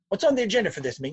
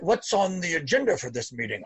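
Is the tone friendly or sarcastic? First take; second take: friendly; sarcastic. First: It is said in a warm, friendly tone. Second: It is said in a mocking, sarcastic tone. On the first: It is a calm, neutral request for facts. The speaker calls it right. "You say it with a smile. You say it as an adult" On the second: It scolds others like a parent would. The speaker calls it wrong. "that's a sarcastic, storming, gross, parent, icky, dysfunctional behavior"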